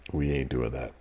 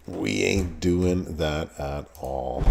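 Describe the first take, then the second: First: Said in the usual way. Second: We ain't doing that at all, slow, leaning on "ain't"; slow, deliberate no with "ain't" stressed; slow firm refusal. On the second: Real, not acted. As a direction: drag out "ain't" and put your weight on it. Refusing again, more firmly.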